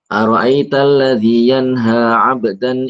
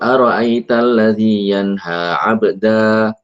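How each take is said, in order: First: The word ends with a clear n sound. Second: The word ends without any n sound. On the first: The reading continues on without stopping. "Karena dibaca lanjut terus wasol, maka nunnya dibaca" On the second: The reading stops at this word. "kalau seandainya berhenti di sini ... Maka nunnya tidak tidak dibaca"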